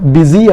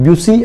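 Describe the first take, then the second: First: It starts with a plain 'bi' sound. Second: It starts with a 'byu' sound. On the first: The speaker calls it right. "ಬಿಸಿ ಎಂಬ ಉಚ್ಚಾರಣೆ ಮಾಡಬೇಕು" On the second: The speaker calls it wrong. "ಬ್ಯುಸಿ ಅಂತ ಅಲ್ಲ"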